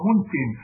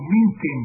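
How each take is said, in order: First: Said in the usual way. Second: منتن with an i after the first m, "mintin"; kasra variant. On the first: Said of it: "وقد يقال له منتن". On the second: Shown as a demonstration. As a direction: open منتن with "min" rather than "mun". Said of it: "منتن بالكسر".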